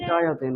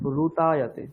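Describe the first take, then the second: First: The first syllable is pronounced like 'ri'. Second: The first syllable is pronounced like 'ru'. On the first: The speaker calls it wrong. "ঋতায়াতে নয়" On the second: The speaker calls it right. "রু বলতে হবে"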